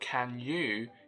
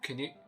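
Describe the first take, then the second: First: The vowels are said full. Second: The vowels are reduced to schwa. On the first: "it was not even" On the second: "They replaced all with the schwa sound"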